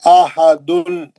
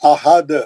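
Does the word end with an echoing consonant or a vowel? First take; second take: vowel; consonant. First: The word ends with a full 'un' vowel ending. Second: The word stops on a bouncing, echoing final 'd'. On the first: "ये दो पेश" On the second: "अब इन्हें खलखला करेंगे"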